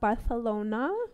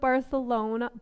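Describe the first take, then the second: First: The c is said like an English th. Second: The c is said like an English s.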